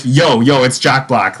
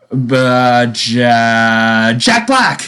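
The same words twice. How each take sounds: First: Laid-back "Yo, yo, it's Jack Black" at normal pitch; easy, offhand "it's Jack Black"; casual teen corrected. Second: Put-on teen's first guess. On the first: Retold or imitated. Teen coolly giving the hangman answer, relaxed. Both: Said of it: "no, no, he was like".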